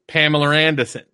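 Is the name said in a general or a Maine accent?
Maine. A Maine accent, with the R moved elsewhere. "people in Maine would go ... they just take the R and move it"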